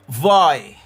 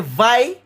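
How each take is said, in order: First: The vowel sounds like 'oy', as in boy. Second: The vowel sounds like 'eye', as in vice.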